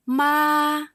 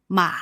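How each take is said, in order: First: "ma" held long, high and flat; first tone. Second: "ma" dipping down then up; third tone. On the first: Teacher contrasting mother with horse, "ma" high and flat. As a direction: sustain "ma" on one high level note. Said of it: "first tone". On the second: Teacher contrasting horse with mother, "ma" falling then rising. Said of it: "the third tone". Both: Shown as a demonstration.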